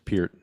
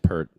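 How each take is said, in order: First: The vowel differs from the one in 'hurt'. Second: The vowel sounds like the one in 'hurt'. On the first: The speaker calls it right. "It's [name]" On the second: The speaker calls it wrong. "Sorry, I said Pert"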